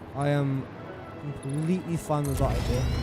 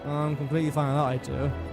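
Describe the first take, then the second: First: The tone sounds sarcastic and ironic. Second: The tone sounds sincere and genuine. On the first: The speaker does not really like the idea. The speaker calls it wrong. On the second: The speaker really likes the idea. The speaker calls it right.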